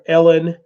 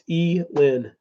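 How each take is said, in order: First: The first vowel is a short 'eh' sound. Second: The first vowel is a long 'ee' sound. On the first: The speaker calls it wrong. "everybody wants to call her Elon or Ellen" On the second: The speaker calls it right. "why do you say a long E? ... E. Lynn is how you pronounce it"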